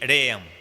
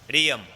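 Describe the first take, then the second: First: The syllable before 'yam' has an 'e' vowel. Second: The syllable before 'yam' has an 'i' vowel. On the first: The speaker calls it wrong. "ना कि रेयम" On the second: The speaker calls it right. "रियम ना कि रेयम"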